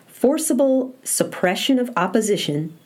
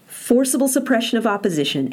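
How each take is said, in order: First: It is read at a slow, unhurried pace. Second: It is read at a quicker pace. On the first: "I took my time this first time" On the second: "but I'll read it a little bit faster"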